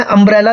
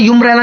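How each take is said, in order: First: "अम्ब्रेला" opening on a short "uh" vowel; correct pronunciation. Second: "यूम्ब्रेला" opening like the letter U, "yoo"; mispronounced on purpose. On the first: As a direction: say "अम्ब्रेला" with no y-glide at the start. ("अम्ब्रेला" की शुरुआत छोटे "अ" से) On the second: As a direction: say "यूम्ब्रेला" with a "yoo" first syllable. ("यूम्ब्रेला" की शुरुआत "यू" से, जानबूझकर गलत) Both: Shown as a demonstration. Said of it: "इसको मैं यूम्ब्रेला नहीं बोल रहा".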